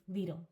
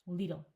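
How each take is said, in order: No difference in how they are said.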